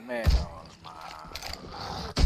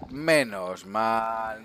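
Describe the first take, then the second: First: Very slow, lower, softer sigh of relief; drawn-out relief. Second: Said in the usual way. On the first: Real, not acted. Gamer to viewers after the fight, long relieved sigh. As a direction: let the words melt out in relief.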